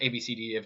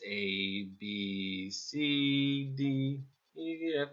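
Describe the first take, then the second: First: The letters are rattled off very quickly. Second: The letters are said slowly, one by one. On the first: The person is in a hurry. The speaker calls it wrong. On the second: The person takes enough time. The speaker calls it right.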